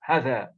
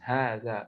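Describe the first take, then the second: First: The first vowel is short, as spelled. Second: The first vowel is long and drawn out. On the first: "If you read it here, how it is written" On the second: "That's how it's pronounced"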